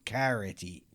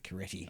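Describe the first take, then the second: First: The first syllable sounds like the word carrot. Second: The first syllable does not sound like carrot. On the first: The speaker calls it wrong. "Most people pronounce my surname as Caretti. Carrot, as in the vegetable" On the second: The speaker calls it right. "But it's actually Caretti"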